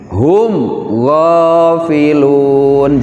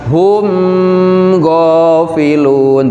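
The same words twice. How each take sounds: First: The m is said clearly without a nasal hum. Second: The m is held with a nasal hum. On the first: The speaker calls it right. "tapi harus jelas diidharkan gitu" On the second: The speaker calls it wrong. "jangan dibaca"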